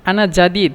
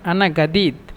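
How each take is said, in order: First: The second word begins with a j sound. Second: The second word begins with a hard g sound. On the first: This is the standard Arabic form. "আনা জাদিদ মূলত" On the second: This is the Egyptian dialect form. "মিশরীয়রা জিমকে গয়ন বলে, এই জন্য আনা গাদিদ"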